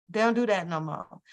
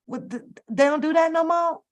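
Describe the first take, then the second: First: Said in the usual way. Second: Incredulous question. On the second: Real, not acted. Vlogger to viewers about couples no longer faithful, higher incredulous question. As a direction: pitch jumps up in disbelief. Disbelief at celebrity cheating.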